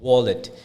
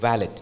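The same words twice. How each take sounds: First: The first vowel is a rounded 'woh' sound. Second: The first vowel is an open 'wah' sound. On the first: The speaker calls it right. "W A becomes W O" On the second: The speaker calls it wrong. "വാലറ്റ് ആയിരിക്കും മിക്കവാറും നമ്മൾ കേൾക്കുന്നത്"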